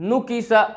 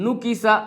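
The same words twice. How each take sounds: No difference in how they are said.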